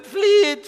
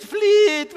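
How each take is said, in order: First: Shouted plea. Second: Loud high cry to flee; shouted plea again. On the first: Repeated cry to flee. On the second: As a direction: yell it out in desperation. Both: Acted.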